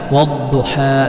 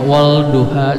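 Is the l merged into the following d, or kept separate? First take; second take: merged; separate. First: The l merges fully into a doubled d. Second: The l is pronounced separately before the d. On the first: The speaker calls it right. "dileburkan huruf dha" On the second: The speaker calls it wrong. "Jangan dipisah, misalnya wal duha salah"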